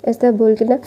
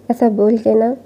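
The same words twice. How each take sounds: The two takes are said the same way.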